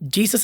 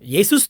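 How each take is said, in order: First: The name begins with a J sound. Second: The name begins with a Y sound. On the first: The speaker calls it wrong. "ನಾವು ಹೇಳ್ತಿರೋ pronunciation ತಪ್ಪಾಗಿದೆ" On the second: The speaker calls it right. "ಜೆ ಅನ್ನೋ ಪದನೇ ಇಲ್ವಲ್ಲ"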